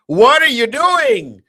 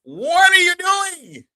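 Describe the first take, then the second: First: High, loud, slow drawn-out mock taunt; young brothers' mocking call. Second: Very high, loud, slow stretched taunt; young brothers' mocking call. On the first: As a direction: sneer it like the young guys do. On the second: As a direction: mimic the young guys, drawing it out. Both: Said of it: "As young brothers say".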